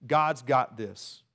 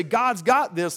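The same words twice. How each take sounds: First: Slow quoted phrase. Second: Glib mock phrase. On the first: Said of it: "We say this phrase". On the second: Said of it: "We create this awful mess and wanna say". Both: Shown as a demonstration.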